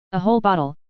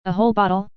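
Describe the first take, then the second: First: "A whole bottle" settled, falling on "whole"; firm confirmation. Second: "A whole bottle?" with rising tune on "whole"; surprised question. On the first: D'Artagnan confirms the offer. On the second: Soldier asks, surprised at offer. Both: A narrator's reading.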